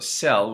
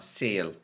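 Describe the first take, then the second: First: The vowel is a short e sound. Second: The vowel is closer to an a sound.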